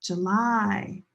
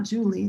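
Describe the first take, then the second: First: "July" stressed on the end, juh-LIE; second-syllable stress. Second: "Julie" stressed on the first syllable, JOO-lee; wrong first stress. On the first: Teacher showing where stress is, "July" as juh-LIE. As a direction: stretch the last syllable of "July", rhyming with tie. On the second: Teacher showing what it's not, "Julie" as JOO-lee. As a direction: hit the start of "Julie", ending in "lee". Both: Shown as a demonstration. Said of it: "The stress is here".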